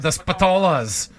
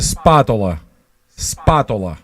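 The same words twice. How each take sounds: First: Spatolas said spuh-TOH-luhz, stress in the middle; Americanized pronunciation. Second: Spatola said SPAH-toh-lah, stress on the first a; Italian pronunciation. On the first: Asking Bruno about his own last name, Spatolas as spuh-TOH-luhz. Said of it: "How do you pronounce your own". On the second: Correcting Bruno's last name, Spatola as Italian SPAH-toh-lah. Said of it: "That's how you pronounce your name". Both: Shown as a demonstration.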